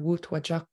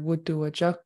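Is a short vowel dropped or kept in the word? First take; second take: dropped; kept. First: A short vowel is dropped, shortening the word. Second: Every short vowel in the word is pronounced. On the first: This is the Hinyakwan dialect form. "In the Hinyakwan dialect, you'll hear" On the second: This is the Northern Coastal dialect form. "in Northern Coastal, for it was killed, you would hear"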